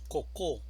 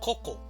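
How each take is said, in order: First: The stress is on the second syllable. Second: The stress is on the first syllable. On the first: The speaker calls it wrong. "Si estuviera en la segunda sílaba diríamos cocó" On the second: The speaker calls it right. "decimos coco"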